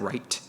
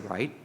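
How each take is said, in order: First: It is said in a general American accent. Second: It is said in a Central Californian accent. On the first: "instead of right" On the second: "I am originally from Central California and I have my own kind of accent"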